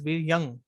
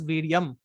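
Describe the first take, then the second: First: The word ends with an ng sound. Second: The word ends with an m sound. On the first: The speaker calls it right. "It is Viryang, ... It can be pronounced as N G" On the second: The speaker calls it wrong. "I'm not pronouncing it as Viryam"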